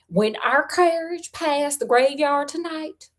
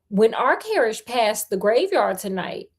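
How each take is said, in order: First: It is read in a put-on character accent. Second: It is read in the reader's plain voice.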